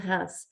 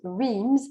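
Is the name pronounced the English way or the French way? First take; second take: French; English. First: The name is said with a French pronunciation. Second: The name is said with an English pronunciation. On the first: "mais en français, on dit Reims" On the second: "en anglais, souvent, ça se prononce Reims"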